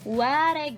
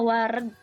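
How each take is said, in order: First: The second vowel is an open e sound. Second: The second vowel is a schwa sound. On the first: The speaker calls it wrong. "ulah ngangge paneleng atau paneleng jadi wareg" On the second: The speaker calls it right. "Wa ra dipamepet ga dipaehan"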